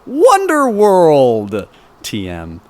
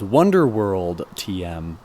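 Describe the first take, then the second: First: It is said in an excited, enthusiastic way. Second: It is said in a plain, flat way. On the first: The speaker calls it right. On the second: The speaker calls it wrong.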